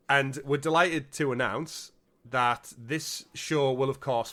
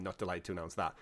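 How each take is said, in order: First: Slow, bright announcer delivery; mock cheerful announcement. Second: Quiet and low, deflated correction; glum. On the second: Acted. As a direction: drop it to a gloomy mutter.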